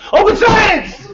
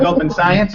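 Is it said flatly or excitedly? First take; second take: excitedly; flatly. First: It is said loudly with excited energy. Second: It is said in a flat, plain way.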